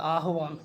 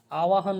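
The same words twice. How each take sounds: First: "आह्वान" with h before v, ending in long वान; correct form. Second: "आवाहन" with वा before ह; wrong form. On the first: Teacher correcting students, h before v. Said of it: "ये होता है आह्वान". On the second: Teacher quoting the mistake, v before h. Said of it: "आवाहन नहीं होता". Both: Shown as a demonstration.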